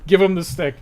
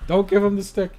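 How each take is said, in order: First: Louder, higher call to hand over the stick; playful mock order, louder and higher; mock command. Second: Higher, in a different put-on voice, telling them not to; lightly voiced counter-order, higher pitched; mock contrary voice. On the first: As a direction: bark it like an eager player urging. Mock game instruction voiced. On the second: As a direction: answer back as a second silly voice. Contrary mock instruction, other voice.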